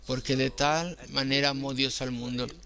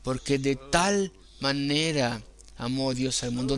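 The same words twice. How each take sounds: First: No special stress on de tal manera. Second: The stress is on de tal manera.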